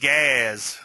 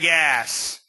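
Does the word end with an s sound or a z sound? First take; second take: z sound; s sound. First: The word ends with a z sound. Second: The word ends with an s sound.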